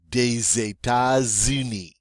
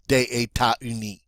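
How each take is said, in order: First: The S sounds are linked as Z. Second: The S sounds are left silent. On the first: The speaker calls it right. "we're going to pronounce it now as a Z" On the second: The speaker calls it wrong. "sounds better than"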